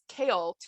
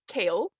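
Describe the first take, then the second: First: The name is said with two syllables. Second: The name is said with one syllable. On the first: The speaker calls it right. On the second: The speaker calls it wrong.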